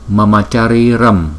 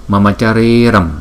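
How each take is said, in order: No difference in how they are said.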